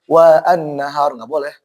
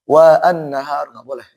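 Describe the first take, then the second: The two takes are said the same way.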